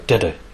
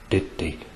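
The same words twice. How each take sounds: First: It is said quite fast. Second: It is said more slowly.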